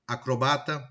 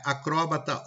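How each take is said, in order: First: "acrobata" stressed on BA; "acrobata" with the beat on ba; penultimate stress. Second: "acróbata" stressed on CRÓ; "acróbata" with open, stressed o; antepenultimate stress. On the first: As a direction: say "acrobata" as "a-cro-BA-ta". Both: Shown as a demonstration. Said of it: "Ele oscila".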